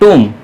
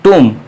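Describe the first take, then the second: The two takes are said the same way.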